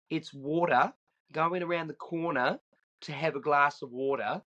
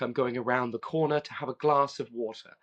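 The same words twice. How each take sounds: First: A hint of Australian, flap the T in "water" to a D; Australian accent. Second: "water" with a crisp T, lightly British; light English voicing, sound the T in "water" clearly; English accent. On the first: Cousin teaching his kid the Aussie way, lightly voiced Australian. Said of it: "say it in the Australian way, which is to put a D in there". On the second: The English kid saying it his own way, a hint of British accent. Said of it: "Whereas he would be like". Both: Shown as a demonstration.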